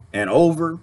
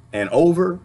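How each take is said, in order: Both takes have the same delivery.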